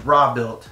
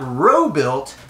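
First: The first word has a short 'ah' vowel. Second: The first word has a long 'oh' vowel. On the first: The speaker calls it right. "It is raw-built" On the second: The speaker calls it wrong. "Not robe-built"

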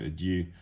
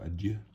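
First: The word has an anglicized pronunciation. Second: The word has a French pronunciation.

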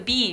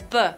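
First: It is said as the letter name, 'bee'. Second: It is said as the short letter sound, 'buh'. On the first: It names the letter. "This is a B" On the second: It gives the sound the letter makes. "B says B"

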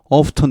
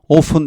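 First: The t sound is pronounced. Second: The t sound is silent. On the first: "30% 정도는 often 이렇게 t를 발음해" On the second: "70% 정도가 often 이렇게 하고"

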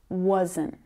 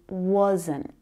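First: The word is full and clearly pronounced. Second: The same.

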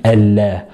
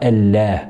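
No difference in how they are said.

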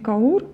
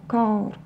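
First: The stress falls on the u sound. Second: The stress falls on the a sound. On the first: The speaker calls it wrong. "Не каур" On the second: The speaker calls it right. "ударение падает на первый звук"

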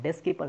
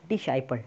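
First: The middle consonant is a k sound. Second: The middle consonant is an s sound. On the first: The speaker calls it wrong. "बहुत से लोग इसे डिस्केपल पढ़ते हैं, डिस्केपल नहीं" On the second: The speaker calls it right. "डिसाइपल is a correct pronunciation"

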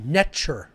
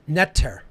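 First: The middle consonant is a hard ch sound. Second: The middle consonant is a plain t sound. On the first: The speaker calls it right. "The T is a ch sound, hard, like T-C-H" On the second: The speaker calls it wrong. "It was actually not pronounced Neter. That's the English equivalency phonetically"

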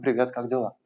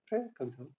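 First: The greeting is said in an agitated, surging way. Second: The greeting is said lightly and airily. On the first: The surrounding space feels like restless currents. "пространство сделано из потоков воды, которые тревожны" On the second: The surrounding space feels like fluttering lightness. "пространство сделано из легкости, то есть у вас бабочки в теле"

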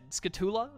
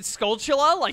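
First: The L sounds are left out of the word. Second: The L sounds are clearly pronounced in the word. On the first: "Are the L's silent?" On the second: "I say it like it's spelled"

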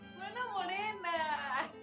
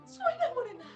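First: It is said in a happy tone. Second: It is said in a frightened tone.

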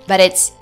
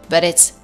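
Both takes have the same delivery.

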